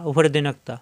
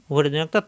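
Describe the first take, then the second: No difference in how they are said.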